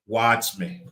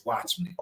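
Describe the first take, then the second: First: Said in the usual way. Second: Dropped to a soft, intimate hush; hushed invitation; soft watch me. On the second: Real, not acted. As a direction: pull them in quietly with the words. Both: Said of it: "I want you not listen to my words".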